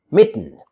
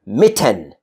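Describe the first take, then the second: First: Mitten as mit-n; vowel-less ending. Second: Mitten as mit-TEN; over-full second syllable. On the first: Teacher modelling natural speech, mitten with bare N ending. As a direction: drop the vowel in mitten, T straight into N. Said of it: "I say". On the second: Teacher showing what to avoid, Mitten with full "ten". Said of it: "I don't say". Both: Shown as a demonstration.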